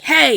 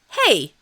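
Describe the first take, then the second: First: It is yelled out loud as an urgent call. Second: It sounds bright and cheerful, like a greeting. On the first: It is a call to confront an attacker. The speaker calls it right. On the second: It sounds like a friendly greeting. The speaker calls it wrong. "not like that. It sounds really, really happy"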